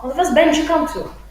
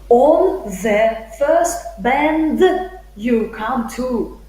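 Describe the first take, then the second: First: Bend and you blend together into bench-you. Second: Bend and you are said as separate words. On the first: "it's connected speech" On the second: "The speaker won't say"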